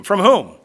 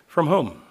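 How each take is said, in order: First: "whom" pushed out louder and falling; louder pointed question. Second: Said in the usual way. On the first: Shown as a demonstration. Preacher presses the congregation on "whom", louder. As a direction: hit "whom" hard as a challenge. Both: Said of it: "We call these divine passives".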